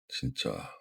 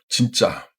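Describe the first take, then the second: First: It is said slowly with a sigh. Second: It sounds forceful and full of conviction. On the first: I can't believe it; resignation or disappointment. "Dit lentement, avec un soupir" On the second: That is so true, total agreement. "avec force et conviction"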